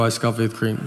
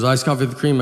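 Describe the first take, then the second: First: "Iced coffee with cream." repeated low and level; tired customer repeats it plainly; flat confirming. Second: "Iced coffee with cream?" checked back with a lift on "cream"; questioning rise. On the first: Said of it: "I go". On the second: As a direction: barista double-checks, a touch louder. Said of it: "then she goes". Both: Retold or imitated.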